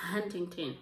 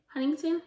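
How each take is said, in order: First: Huntington said low with a falling tune; falling try. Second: Huntington said high with a sharp rising question tune; questioning rise. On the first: Reading the author's name aloud, a low unsure guess. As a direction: say Huntington like a tentative statement. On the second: Unsure of the author's name, a high questioning try. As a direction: ask Huntington back as a puzzled question. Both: Shown as a demonstration. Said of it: "I don't know".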